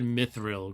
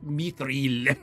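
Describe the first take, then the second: First: The word is said in an anglicized way. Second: The word is said in a non-anglicized way. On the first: The speaker calls it wrong. "I've been saying it wrong the whole time" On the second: The speaker calls it right. "they're like mithril or something like that"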